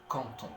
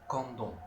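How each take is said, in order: First: The words are linked with a T sound. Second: The words are linked with a D sound. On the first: The speaker calls it right. "On prononce canton" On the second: The speaker calls it wrong. "on ne prononce pas kandon"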